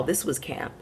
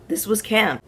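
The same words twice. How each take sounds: First: Said in the usual way. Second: This was camp, higher and punchier on camp; emphatic repeat. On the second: Shown as a demonstration. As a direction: land camp hard the second time.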